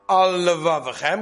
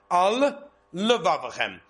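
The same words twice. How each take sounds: First: The two L sounds merge into one. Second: The two L sounds are said separately. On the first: The speaker calls it wrong. "Not Al Levavachem, because that's one lama" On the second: The speaker calls it right. "There's two"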